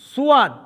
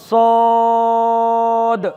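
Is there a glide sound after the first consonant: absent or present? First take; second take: present; absent. First: A glide sound follows the first consonant. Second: No glide; a long vowel between two consonants. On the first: The speaker calls it wrong. "এই অক্ষরটির ভুল উচ্চারণ সুয়াদ" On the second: The speaker calls it right. "শুধু স দ মাঝখানে লম্বা"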